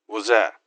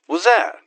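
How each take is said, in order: First: Said in the usual way. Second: Much higher and louder, a shocked squeak; startled high yelp. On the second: Acted. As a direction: jump at the sight and blurt it out. Noticing something.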